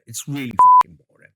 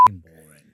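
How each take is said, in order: First: Fast, loud emphatic blast; loud outburst. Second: Dropped to a hushed aside; quiet aside. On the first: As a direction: blurt it out loud and quick. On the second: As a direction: say it under your breath. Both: Real, not acted. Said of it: "They'll beep that out".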